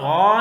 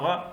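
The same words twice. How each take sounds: First: The vowel is drawn out long. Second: The vowel is cut short. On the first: The speaker calls it wrong. "गाइन ज़बर गा नहीं पढ़ेंगे" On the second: The speaker calls it right. "इतना हम इसको मुख्तसर करके पढ़ेंगे"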